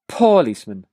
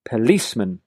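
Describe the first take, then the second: First: The stress is on the first syllable. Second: The stress is on the second syllable. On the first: The speaker calls it wrong. "this time I'm going to make the first syllable stronger" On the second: The speaker calls it right. "Notice how I emphasize the second syllable here"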